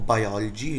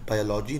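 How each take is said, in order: First: The 'lo' syllable has an open 'aw' vowel. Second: The 'lo' syllable has a full 'oh' vowel. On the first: The speaker calls it right. "Actually जो उच्चारण होता है वो बायोलॉजी होता है" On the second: The speaker calls it wrong. "बायोलॉजी नहीं होता है"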